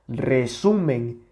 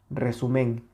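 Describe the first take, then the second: First: The middle syllable carries the strongest stress. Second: The middle syllable carries no stress. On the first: The speaker calls it right. "aquí se escucha la mayor intensidad" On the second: The speaker calls it wrong. "le acabamos de quitar la intensidad a esta sílaba"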